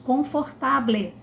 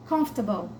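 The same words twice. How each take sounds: First: "confortable" with all four syllables, Portuguese style; wrong syllable by syllable. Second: "Comfortable" as "KUMF-tuh-bul", three short beats; correct English. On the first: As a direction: read it as it is spelled. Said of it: "a gente às vezes ainda diz". ("confortable" lido sílaba por sílaba, errado) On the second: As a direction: swallow the middle syllable. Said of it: "não é confortable". ("Comfortable" como "cãmf-ta-bol") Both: Shown as a demonstration.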